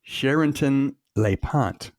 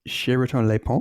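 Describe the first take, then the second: First: The name is said with an American accent. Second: The name is said with a French accent. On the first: The speaker calls it wrong. "if I pronounce it like an American" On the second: The speaker calls it right. "But I'm guessing it's"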